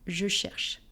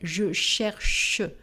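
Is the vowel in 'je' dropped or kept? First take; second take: dropped; kept. First: Je is reduced to a quick sch sound. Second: The vowel of je is fully pronounced. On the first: The speaker calls it right. "It's je cherche. ... it's schla" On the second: The speaker calls it wrong. "I don't say je cherche"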